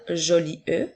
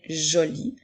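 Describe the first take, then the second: First: An extra vowel sound is heard at the end. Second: The word ends on the vowel of -li. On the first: The speaker calls it wrong. "nous n'allons pas dire joli E" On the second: The speaker calls it right. "mais bien joli"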